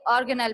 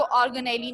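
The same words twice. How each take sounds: First: ऑर्गेनल said as or-ge-nal, ending on nal with no extra syllable; the proper reading, clipped at nal; correct pronunciation. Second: ऑर्गेनेली said as or-ge-ne-li, ending on a long li; the mistaken reading with the extra li; wrong pronunciation. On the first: Teacher to students, giving the correct reading ऑर्गेनल. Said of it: "इसको ऑर्गेनल पढ़ते हैं". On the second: Teacher to students, demonstrating the wrong reading ऑर्गेनेली. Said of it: "इसको ऑर्गेनेली नहीं पढ़ते". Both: Shown as a demonstration.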